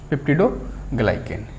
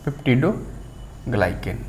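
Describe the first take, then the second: First: Said in the usual way. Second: peptidoglycan said slowly and softly as the reveal; answer drawn out. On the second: Shown as a demonstration. Teacher to students revealing the answer, slow and soft. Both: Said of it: "तो हमारा answer क्या होगा".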